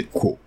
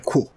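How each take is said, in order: First: Kuo with a dry k, no puff; unaspirated K. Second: Kuo with a puff of air after the k; aspirated K. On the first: Teacher gives the right take, Kuo without aspiration. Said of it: "Et ça n'expire pas". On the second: Teacher shows the wrong take, Kuo with aspiration. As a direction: breathe out hard on the k of Kuo. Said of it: "sinon ce serait Kuo". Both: Shown as a demonstration.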